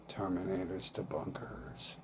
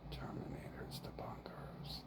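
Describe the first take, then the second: First: Said in the usual way. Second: Unvoiced whisper of the mantra. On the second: Real, not acted. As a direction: breathe the words without voice.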